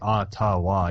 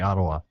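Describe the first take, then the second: First: Every sound is pronounced fully and carefully. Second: Some sounds are reduced and run together. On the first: This is the overly correct way. The speaker calls it wrong. "You don't say Ottawa" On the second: This is the natural way. The speaker calls it right. "You say Ottawa"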